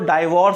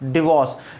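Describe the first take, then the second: First: The first syllable has a 'die' vowel. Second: The first syllable has a short 'dih' vowel. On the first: The speaker calls it wrong. "लोग उसको डाइवोर्स बोल देते हैं कई लोग" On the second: The speaker calls it right. "इसका pronunciation होता है डिवोर्स"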